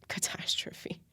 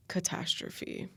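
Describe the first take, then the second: First: Whispered echo. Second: Catastrophe said slowly and drawn out, each syllable weighed; drawn-out stress. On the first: Echoing her own word to viewers, whispered. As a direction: repeat Catastrophe as a hushed whisper to yourself. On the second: Telling viewers about her twenties, slow stressed catastrophe. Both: Shown as a demonstration.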